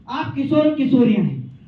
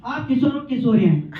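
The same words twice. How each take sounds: The two takes are said the same way.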